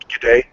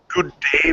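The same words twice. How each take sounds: First: It is said in an Australian accent. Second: It is said in an English accent. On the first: "became good day" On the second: "good day became"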